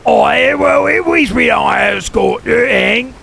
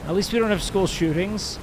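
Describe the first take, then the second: First: Loud, high hammed-up London shout; mock British accent. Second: Said in the usual way. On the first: Mocking a British viewer's comeback, loud mock London accent. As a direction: yell it like a cartoon Brit.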